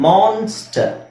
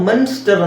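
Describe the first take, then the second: First: The first vowel sounds like an open 'ah'. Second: The first vowel sounds like a short 'uh'. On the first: The speaker calls it right. "It's ಮಾನ್ಸ್ಟರ್" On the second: The speaker calls it wrong. "ಇದನ್ನ ನಾವು ಮನ್ಸ್ಟರ್ ಅಂತ ಹೇಳಲ್ಲ"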